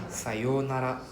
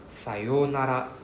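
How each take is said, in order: Both takes have the same delivery.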